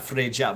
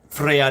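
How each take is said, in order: First: The middle consonant is a 'j' sound. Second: The middle consonant is a 'y' sound. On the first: The speaker calls it wrong. "not Freja" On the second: The speaker calls it right. "but Freya"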